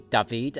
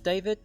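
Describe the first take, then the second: First: The name is pronounced the French way. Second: The name is pronounced the plain English way.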